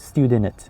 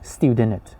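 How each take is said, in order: The two takes are said the same way.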